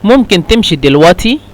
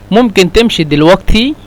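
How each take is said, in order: First: The qaf is said as a glottal stop. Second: The qaf is said as a gh sound. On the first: "نستخدم قاف يعني همزة" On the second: "ونستخدم مرة ثانية قاف يعني غين"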